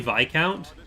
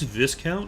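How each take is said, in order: First: It uses the speaker's own, non-American pronunciation. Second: It uses the American pronunciation of the word. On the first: "that's the proper pronunciation" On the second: "I will always get Americans in the comments saying"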